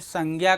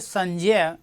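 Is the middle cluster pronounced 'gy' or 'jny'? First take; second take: gy; jny. First: The middle cluster sounds like 'gy'. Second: The middle cluster sounds like 'jny'. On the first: This is the common everyday pronunciation. The speaker calls it wrong. "हम आप उच्चारण क्या करते हैं" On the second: This is the original pronunciation. The speaker calls it right. "मूलतः उच्चारण होना चाहिए"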